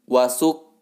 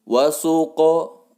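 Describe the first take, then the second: First: The q sound ends abruptly with no vowel. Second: The q sound bounces into a short o. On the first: The speaker calls it wrong. "bukan wasuk" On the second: The speaker calls it right. "mesti dibaca memantul. Adapun qaf memantul bunyinya o"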